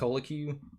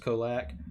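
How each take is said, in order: First: The name ends with an extra vowel sound. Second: The name ends on a consonant sound. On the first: The speaker calls it wrong. "I mispronounced this card's name" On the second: The speaker calls it right. "they just came out and said it was Kolak"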